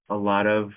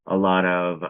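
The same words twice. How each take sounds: The two takes are said the same way.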